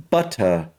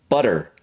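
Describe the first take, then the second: First: British "butter", crisp T, no R; British accent. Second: "butter" with flapped T and sounded R; American pronunciation. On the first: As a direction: end "butter" on "ah", British style. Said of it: "in the British version". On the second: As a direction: soften the T in "butter". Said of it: "When I speak with the American". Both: Shown as a demonstration.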